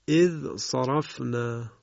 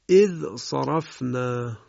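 Both takes have the same delivery.

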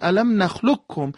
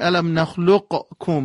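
First: The qaf is merged into the following kaf. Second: The qaf is released with a bounce before kaf. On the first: The speaker calls it right. "میگیم" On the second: The speaker calls it wrong. "دیگه نمیگیم"

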